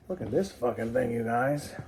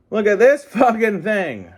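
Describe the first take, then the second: First: Said in the usual way. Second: High, loud burst of excitement; excited shout. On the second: Real, not acted. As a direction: shout it out, thrilled with the toy. Repeats exclamation louder.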